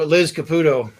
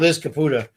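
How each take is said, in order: First: The surname ends with an 'oh' sound. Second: The surname ends with an 'ah' sound. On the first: The speaker calls it wrong. "First time I said it wrong" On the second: The speaker calls it right. "Second time I got it right"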